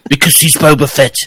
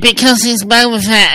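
First: It is said in a plainer, less caricatured voice. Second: It is said in a mocking, caricatured put-on voice. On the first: The speaker calls it wrong. "I'm using the wrong voice, aren't I?" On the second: The speaker calls it right. "It's like"

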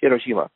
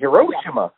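First: The syllables are evenly weighted, no middle stress. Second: A middle syllable carries strong stress. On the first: The speaker calls it right. "It's Hiroshima" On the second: The speaker calls it wrong. "They say Hiroshima"

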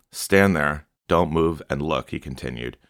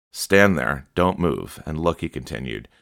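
The two takes are said the same way.

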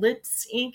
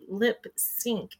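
First: The s sound ends the first word. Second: The s sound starts the second word. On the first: The speaker calls it wrong. "I keep saying Lips Inc" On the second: The speaker calls it right. "it's actually supposed to be Lip Sync"

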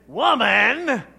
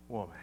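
First: The word is said sharply and curtly. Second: The word is said softly and warmly. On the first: It sounds disrespectful toward his mother. The speaker calls it wrong. "I'm pretty sure Jesus didn't say" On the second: It sounds respectful and affectionate. The speaker calls it right. "More like"

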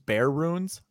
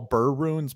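First: The first word sounds like 'bear'. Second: The first word sounds like 'burr'. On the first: The speaker calls it wrong. "who call burr runes bear runes" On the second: The speaker calls it right. "it's always burr"

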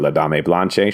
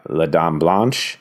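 First: The name is given a Spanish pronunciation. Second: The name is given a French pronunciation.

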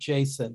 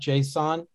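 First: The word is pronounced like the name Jason. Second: The word is not pronounced like the name Jason. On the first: "I call it Jason" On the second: "not JSON"

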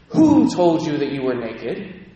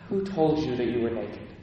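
First: It is said in an angry tone. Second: It is said in a sad, disappointed tone. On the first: God is condemning and angry. "You can read it with the angry voice" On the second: God is saddened rather than condemning. "Or you can read it with the sad, disappointed voice"

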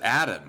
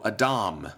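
First: The name is said with an English pronunciation. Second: The name is said with a Hebrew pronunciation. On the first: "We pronounce it Adam" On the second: "or in Hebrew"

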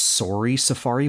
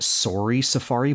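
First: The word sorry has a Canadian accent. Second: The same.

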